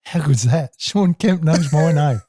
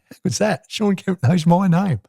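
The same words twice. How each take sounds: First: Still gleeful thought. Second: Higher, slow, savouring the thought; gleeful thought, drawn out slowly; thrilled he knows my name; delighted inner thought. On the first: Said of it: "I'm still thinking". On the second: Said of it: "I must have smiled thinking". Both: Retold or imitated.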